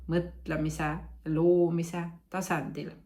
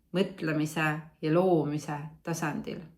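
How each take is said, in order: The two takes are said the same way.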